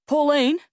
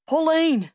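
First: Loud call with a rising tune; rising cry. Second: Loud call with a falling tune; falling cry. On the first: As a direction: call Pauline! out, pitch climbing. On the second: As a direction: cry Pauline! out, pitch dropping. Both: A narrator's reading. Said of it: "he cries".

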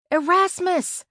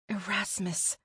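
First: High, loud shout of a name; calling out. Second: Soft, hushed name; whispered. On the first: Searching the woods for a missing friend, calling out high and loud. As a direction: call out loudly for someone lost. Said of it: "I called". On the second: Narrator whispers a name on finding a message, hushed. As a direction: say the name under your breath. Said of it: "I whispered". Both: A narrator's reading.

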